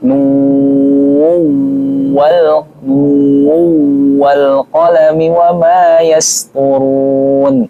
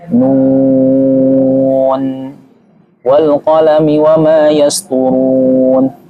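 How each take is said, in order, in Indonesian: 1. N akhir dari 'nun' menyatu ke w. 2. Ada jeda setelah kata 'nun'. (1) "yang idgham" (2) "Ini waqaf"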